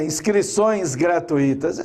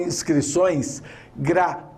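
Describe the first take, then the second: First: Gratuitas as gra-tu-I-tas, stress on I; wrong hiatus. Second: Gratuitas broken as gra, TÚI-tas; diphthong, stress on U. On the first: Retold or imitated. Teacher quoting radio speech, gratuitas said gra-tu-I-tas. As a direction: split u and i in gratuitas. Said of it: "Eu escuto muito rádio". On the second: Shown as a demonstration. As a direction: glide u into i in gratuitas, U stronger. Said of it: "O U é mais forte que o I".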